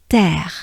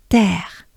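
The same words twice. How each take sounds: No difference in how they are said.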